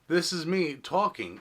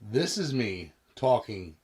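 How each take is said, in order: First: The voice is captured from directly in front. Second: The voice is captured from directly behind. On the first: "in front of the mystery microphone" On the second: "directly behind the mystery microphone"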